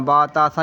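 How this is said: The letter names end in an 'a' vowel. The speaker calls it right. "अरबी लहजे में ... बा ता सा ही पढ़ना है"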